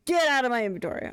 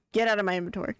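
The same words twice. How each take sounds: First: Quicker, higher mock-annoyed command; insistent order. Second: Said in the usual way. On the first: Streamer ordering an item out of the inventory, insistent. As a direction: push it out impatiently. Repeats the order more forcefully.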